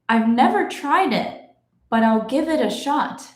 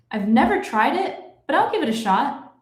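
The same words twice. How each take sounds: First: The sentence is read at a moderate pace. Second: The sentence is read at natural fast speed. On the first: "let's go a little faster now" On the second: "I will read it in my normal speed"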